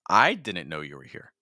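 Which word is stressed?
I. The stress is on the word I. "Now I'm stressing I"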